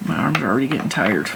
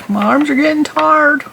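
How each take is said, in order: First: Said in the usual way. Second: Put-on high, whining childish voice; whiny complaint. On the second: Knitter mock-whines about her tired arms, high and childish. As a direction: whine it like a tired little kid.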